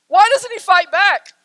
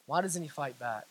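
First: High, loud protest; anguished cry. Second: Low, very soft repeat; hushed question. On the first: Sisters watching Aslan be bound, anguished cry. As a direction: cry it out to be heard. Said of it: "they begin to cry to themselves". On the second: Sisters watching helplessly, hushed bewilderment. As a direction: let the question sink almost to nothing. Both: Acted.

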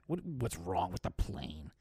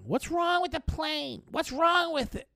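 First: Mocking repeat. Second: Much higher, slow, fussing squeal of a worried woman; mock panicky passenger. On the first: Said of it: "What do you care, Janet?". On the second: Passenger woman demanding answers at the gate, much higher mock panic. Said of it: "this woman was yelling".

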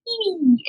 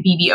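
First: High, soft cooing B B; baby voice. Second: Said in the usual way. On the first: Shown as a demonstration. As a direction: coo B B softly and high. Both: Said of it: "I would try to speak that".

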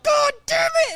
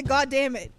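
First: High, loud imitation of his cursing; mock angry outburst. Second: Said in the usual way. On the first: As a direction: burst out in exaggerated frustration like him. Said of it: "He was like". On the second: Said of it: "And he hit the".

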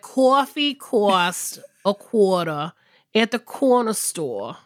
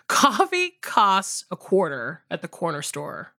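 First: Slow, drawn-out weird Boston accent; hammed-up Boston-style accent; exaggerated accent. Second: Careful, lower take with a touch of high English; lightly posh English-sounding accent. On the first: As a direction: overdo the Northeast vowels, slowly. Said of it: "if I were exaggerating". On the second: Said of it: "you sound like high English, like The Crown". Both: Shown as a demonstration.

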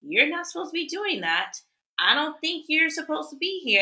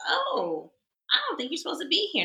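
First: Higher, prim scolding voice; a tattletale adult scolding a stranger; snooty Karen. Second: Higher, quicker prissy scold. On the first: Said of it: "they are the ones who are just like". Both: Retold or imitated.

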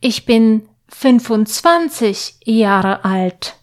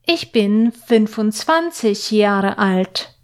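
The two takes are said the same way.

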